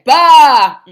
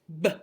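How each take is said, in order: First: The consonant is followed by a clear vowel. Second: The consonant is a short pop without a vowel. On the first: The speaker calls it wrong. "think it's ba with an A at the end" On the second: The speaker calls it right. "you want to pop it"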